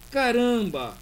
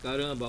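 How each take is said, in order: First: It is said with lively, emotional intonation. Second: It is said flat, without emotional intonation. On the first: The speaker feels surprise. The speaker calls it right. "a interjeição ela só existe na língua portuguesa com bastante entonação" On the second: No feeling is expressed. The speaker calls it wrong. "ela somente ufa, caramba, opa, nossa, não funciona"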